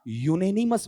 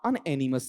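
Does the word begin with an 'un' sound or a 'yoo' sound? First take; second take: yoo; un. First: The word begins with a 'yoo' sound. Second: The word begins with an 'un' sound. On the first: The speaker calls it right. "यूनेनिमस बनेगा" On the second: The speaker calls it wrong. "इसका उच्चारण अनएनिमस नहीं है"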